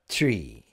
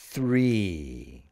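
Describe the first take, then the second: First: It begins with a plain t sound. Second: It begins with a th sound. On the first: The speaker calls it wrong. "a lot of our students end up saying tree" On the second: The speaker calls it right. "Bring the tongue right out between your teeth"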